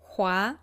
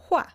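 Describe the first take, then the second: First: The syllable is said with the second tone. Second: The syllable is said with the fourth tone. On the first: "It can have the second tone" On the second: "or it can have the fourth tone"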